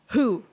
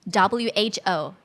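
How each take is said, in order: First: It is said as a single word. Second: Each letter is said separately. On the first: The speaker calls it wrong. "You cannot say it, who. That's going to be wrong" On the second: The speaker calls it right. "you have to know that it's"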